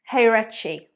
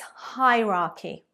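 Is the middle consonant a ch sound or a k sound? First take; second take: ch sound; k sound. First: The middle consonant is a ch sound. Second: The middle consonant is a k sound. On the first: The speaker calls it wrong. "It's not heirechi or hierarchy. Absolutely not" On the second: The speaker calls it right. "It's a k, k at the end, not a ch"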